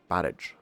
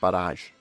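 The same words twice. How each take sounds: First: The word is pronounced in a non-French way. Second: The word is pronounced in a French way. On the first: The speaker calls it wrong. "It's definitely not Barrage anyway" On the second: The speaker calls it right. "Or Barrage, I should say. It's probably French"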